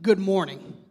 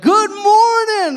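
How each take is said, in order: First: Said in the usual way. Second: Loud, high, drawn-out mock greeting; chipper early bird. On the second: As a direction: sing out an over-cheery wake-up call. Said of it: "that early, early bird, and they're like".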